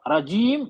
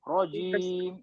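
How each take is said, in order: First: The first vowel sounds like a light 'a'. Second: The first vowel sounds like a heavy 'o'. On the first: The speaker calls it wrong. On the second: The speaker calls it right.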